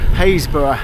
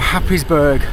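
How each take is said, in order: First: The name is said as Haysborough, in the local way. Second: The name is said as Happysburg, following the spelling. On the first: The speaker knows the local dialect. The speaker calls it right. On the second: The speaker does not know the local dialect. The speaker calls it wrong.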